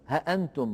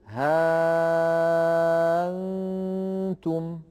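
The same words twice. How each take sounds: First: The hamza is a full glottal stop. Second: The hamza becomes a very long vowel. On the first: This is not the reading of Warsh. "ولا يترك هذه الهمزة ها أنتم محققة هكذا" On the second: This is one accepted reading of Warsh. "يبدلها ألفا وبعدها نون ساكنة، فيتولد أيضا مد لازم"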